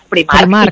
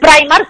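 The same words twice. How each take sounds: First: It is said with a Spanish-style pronunciation. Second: It is said with an English-style pronunciation. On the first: This is how people in Spain say it. "aquí en España decimos Primark" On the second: This is the brand's original name. "el nombre es Primark"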